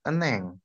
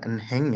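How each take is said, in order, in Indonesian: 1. Bunyi h di tengah dihilangkan. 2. Bunyi h di tengah diucapkan dengan jelas. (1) "tapi eneng" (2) "Bacanya jangan enheng ya"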